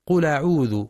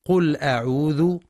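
First: قل أعوذ with a firm stop on the hamza; correct cut hamza. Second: قل أعوذ run together as qul'a'udhu with a weak hamza; wrong connecting hamza. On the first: Teacher gives the correct reading, firm hamza. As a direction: stop clearly before أعوذ. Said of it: "والصواب تحقيقها". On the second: Teacher shows the common mistake, weak hamza. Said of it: "والبعض يقرأ". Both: Shown as a demonstration.

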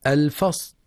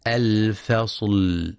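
First: الفصل cut off before the final l sounds; clipped lam mistake. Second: Slow الفصل with the final l held; sustained lam. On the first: Teacher showing the error, final lam cut from الفصل. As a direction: chop the last l off الفصل. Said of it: "ببتر اللام". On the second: Teacher showing the correct lam, final l held in الفصل. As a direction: let the last l of الفصل ring on. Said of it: "وينتبه لصفة البينية في حرف اللام". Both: Shown as a demonstration.

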